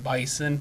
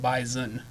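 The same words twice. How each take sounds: First: The middle consonant is a hissing s sound. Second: The middle consonant is a buzzing z sound. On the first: The speaker calls it wrong. "they don't call him the Bison" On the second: The speaker calls it right. "it's pronounced like a Z"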